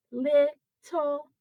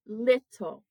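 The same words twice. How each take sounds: First: "little" broken into two separate beats; split into syllables. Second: Said in the usual way. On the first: Shown as a demonstration. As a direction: say "little" slowly as lit, then ul. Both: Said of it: "there's two syllables in this word".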